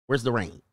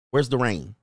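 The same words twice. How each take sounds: The two takes are said the same way.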